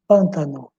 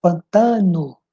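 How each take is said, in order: First: "pântano" stressed PÂN-ta-no; Portuguese stress on first syllable. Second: "Pantano" stressed pan-TA-no; Spanish stress on TA. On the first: Teacher contrasting Portuguese, first syllable stressed. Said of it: "e em português". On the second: Teacher showing Spanish word, stressed on TA. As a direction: lean on the middle syllable of "Pantano". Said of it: "em espanhol". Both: Shown as a demonstration.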